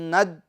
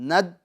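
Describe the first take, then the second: The two takes are said the same way.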